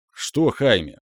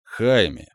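First: A touch of anger, punching ЧТО; angered retort. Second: Said in the usual way. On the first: A narrator's reading. Mentor mildly angered, retorting to Godrik's protest. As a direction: snap back with ЧТО stressed, mildly irritated. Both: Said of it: "разозлился наставник".

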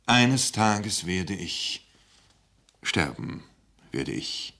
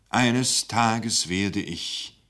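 First: Solemn, halting. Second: Very slow, halting start. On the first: Speaker finally announces his death, slow and sinking. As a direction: let the voice fall on sterben. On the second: Speaker hesitates over his grave news, very slow. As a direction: drag it out, then break off. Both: Acted. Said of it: "er stockte".

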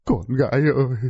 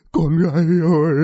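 First: A lightly voiced wail for his daughter; understated grieving cry; wailing father. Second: Louder, higher crying call; father's wail rising into a cry. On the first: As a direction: call out to the lost daughter, mildly. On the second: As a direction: wail the name of the daughter louder. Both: A narrator's reading. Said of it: "đứng ngoài mà gào khóc".

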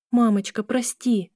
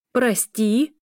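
First: Higher-pitched plea with a falling end; pleading apology. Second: Higher, rising incredulous question; mild narrated outcry, pitched up at the end; indignant cry. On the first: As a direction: apologize to your mother, imploringly. Daughter apologizes to upset mother. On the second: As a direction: throw the word back as an outraged question. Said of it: "закричала женщина ещё громче". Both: A narrator's reading.

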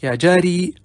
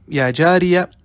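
First: "يا جاري" ending on a long -ii; pausal form. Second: "يا جارية" with the ending voweled, "ya jariya"; final vowel kept. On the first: Teacher shows students the form when pausing, "يا جاري" ending in long -ii. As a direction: stop on "يا جاري", final vowel dropped to give "ya jaarii". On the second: Teacher shows students the shortened name, "يا جارية" ending in a voweled -ya. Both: Shown as a demonstration. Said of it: "إذا وقفت".

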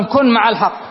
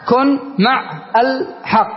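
First: Said in the usual way. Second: كن مع الحق said slowly, each sound spelled out; slow clear demo. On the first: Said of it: "مثل أن أقول مثلًا". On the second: Shown as a demonstration. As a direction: draw out كن مع الحق so the joined sounds are heard. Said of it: "شوف اللام ساكنة". (نطق بطيء واضح لـ كن مع الحق)

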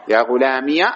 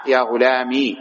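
First: "غلامي" ending in -iya; voweled final ya. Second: "غلامي" ending in long ee; silent final ya. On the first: Teacher explaining ya with fatha, "غلامي" ending in -iya. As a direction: say "غلامي" as ghulamiya. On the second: Teacher explaining still ya, "غلامي" ending in long ee. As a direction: say "غلامي" as ghulamii. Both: Shown as a demonstration. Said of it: "وبالياء فتحا وإسكانا".

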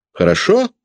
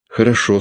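First: Хорошо? asked much higher with a rising tune; pressing question. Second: Said in the usual way. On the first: A narrator's reading. Peredonov badgering Sasha for an answer, high and rising. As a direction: push the boy for an answer, pitched up.

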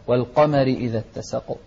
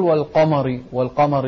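First: والقمر with a thin, light "mari". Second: والقمر with a heavy, dark "mari"; wrong thickened ending. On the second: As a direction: carry the heaviness of ق into the م of والقمر. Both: Shown as a demonstration. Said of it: "لا تقول".

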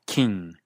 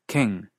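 First: KING with 'ee' before ng, like 'keeng'; raised vowel. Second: KING with a lax 'ih', near 'keng'; unraised vowel. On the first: Teacher giving the accent's real form, KING as 'keeng'. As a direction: tighten KING's vowel toward Spanish I. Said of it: "suena más como I". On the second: Teacher showing what is not said, KING as 'keng'. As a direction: keep KING's vowel relaxed, not 'ee'. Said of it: "no se pronuncia king". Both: Shown as a demonstration.

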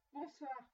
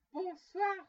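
First: Said in the usual way. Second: Much louder, higher goodbye; forceful, insistent send-off; exasperated dismissal. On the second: A narrator's reading. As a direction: cut the visitor off loudly. Scrooge's last repeated, exasperated dismissal.

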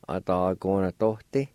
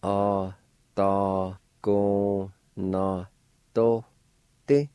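First: "Atagonatote" said at normal pace, rising at the end; the joined-up take of "Atagonatote"; model word at speed. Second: "Atagonatote" drawn out syllable by syllable, extremely slow; teacher spelling out "Atagonatote" by sound; very slow model word. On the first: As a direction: say "Atagonatote" smoothly as one word. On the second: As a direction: stretch "Atagonatote" so every syllable is heard. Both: Shown as a demonstration. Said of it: "It's pronounced like this".

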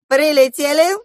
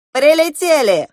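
First: Loud, high, with rising end; high questioning echo of the announcement; puzzled repeat. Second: Loud, high call with falling end; exclaimed announcement. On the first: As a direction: lift the end, unsure and unfinished. Goose now doubts where they landed. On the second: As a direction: announce it firmly and brightly, high then dropping. Goose announces the landing. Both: A narrator's reading.

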